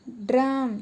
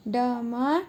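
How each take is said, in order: First: "ड्रम" with clear r; correct reading. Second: "डम" without the r; wrong reading. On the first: (र के साथ "ड्रम") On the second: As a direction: say "डम" dropping the r. (र छोड़कर "डम") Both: Shown as a demonstration.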